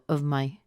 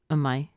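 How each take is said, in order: First: The word 'of' keeps its final v sound. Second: The word 'of' is just a schwa, no v. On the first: "You can say of" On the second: "or uh"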